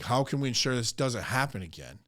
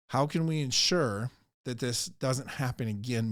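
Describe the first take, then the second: First: It is said bluntly, without humility. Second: It is said softly, with humility. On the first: The speaker calls it wrong. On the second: The speaker calls it right.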